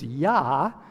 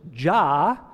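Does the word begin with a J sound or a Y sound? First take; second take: Y sound; J sound. First: The word begins with a Y sound. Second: The word begins with a J sound. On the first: This is the original Hebrew form of the name. "In Hebrew, it's Yah" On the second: This is the English form of the name. "we say in English, Jah. Actually, that's anglicized"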